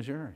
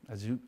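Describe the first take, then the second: First: The word is said with an American pronunciation. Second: The word is said with a French pronunciation. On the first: This is the familiar local pronunciation. "Do you mean Azure?" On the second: This is how the visitors pronounced it. "they were saying um, Azure"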